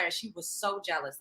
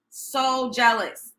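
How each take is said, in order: First: Said in the usual way. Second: So jealous stretched very slowly, both words leaned on; drawn-out emphasis. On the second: Shown as a demonstration. Telling the hosts how jealous her friend was, slow and stretched. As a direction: draw out so jealous as if savouring it.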